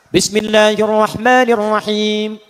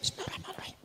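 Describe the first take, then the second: First: It is recited in a loud, full voice. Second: It is recited in a thin, quiet voice. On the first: It is recited aloud. "Jika dijaharkan, dibaca keras" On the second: It is recited silently. "Sir, silent, tipis"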